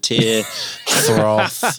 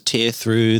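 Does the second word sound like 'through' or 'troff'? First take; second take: troff; through. First: The second word is said like 'troff'. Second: The second word is said like 'through'. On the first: The speaker calls it right. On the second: The speaker calls it wrong.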